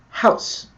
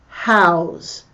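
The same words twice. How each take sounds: First: It is shorter and ends in an s sound. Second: It is longer and ends in a z sound. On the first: It is the noun meaning a dwelling. "not house. A house is something I live in" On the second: It is the verb meaning to keep something somewhere. "Notice I pronounce that house"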